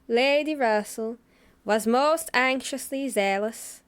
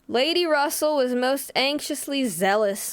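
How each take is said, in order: First: It is read in a Scottish accent. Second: It is read in the speaker's ordinary accent.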